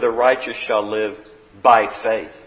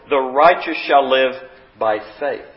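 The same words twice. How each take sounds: First: The word faith carries strong stress. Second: No word is given special stress.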